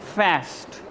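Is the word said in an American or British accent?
American. It is said in an American accent. "Americans बोलते हैं"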